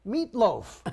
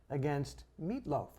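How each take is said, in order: First: "Meatloaf" punched higher and louder; emphatic repeat. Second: Said in the usual way. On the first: Real, not acted. Comedian recalling his softball opponent, "Meatloaf" said high, loud and emphatic. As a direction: hit "Meatloaf" hard, with amusement. Repeats the name for comic effect.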